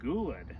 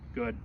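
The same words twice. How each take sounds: First: The word is said with lively, varied pitch. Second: The word is said flatly, without pitch movement. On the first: The speaker calls it right. "voice inflection is important in dog training" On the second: The speaker calls it wrong. "I don't just say good"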